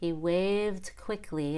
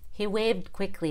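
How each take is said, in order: First: The D in 'waved' is audibly released. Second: The D in 'waved' is held without release. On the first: "Versus he waved quickly with a release D" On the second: "Let's try some of them with a held D"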